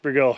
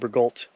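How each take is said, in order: First: The name ends with an 'o' sound, no 'lt'. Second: The name ends with a clear 'lt' sound. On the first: It follows the French pronunciation. The speaker calls it right. "pronounced Bergot because it's French" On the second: It is read as spelled. The speaker calls it wrong. "calling it Bergolt, because that's how it's spelled"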